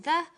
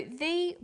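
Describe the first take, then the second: First: Said in the usual way. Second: "the" with a long ee vowel; "the" as said before vowels; the said as "thee". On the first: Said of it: "There is a difference in pronunciation". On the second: Shown as a demonstration. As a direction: say "the" to rhyme with see. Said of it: "before vowel sounds".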